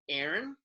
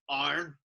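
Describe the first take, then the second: First: The name is said with two syllables. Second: The name is said harshly with one syllable. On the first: This is how Americans say it. "you guys, it's like phonetically, you go like Aaron" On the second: This is how people over here say it. "over here, it's a harsh like Arn"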